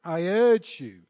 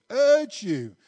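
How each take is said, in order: First: First "urge" read out firmly. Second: "urge" repeated higher and louder; repeated urge stressed. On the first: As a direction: start the plea with "I urge you" at a reading pace. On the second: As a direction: lean harder on the second "urge you". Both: Acted. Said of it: "this is Paul writing".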